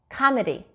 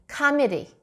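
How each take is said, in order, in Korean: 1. 첫 번째 모음은 'a'처럼 들립니다. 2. 첫 번째 모음은 'a'처럼 들립니다.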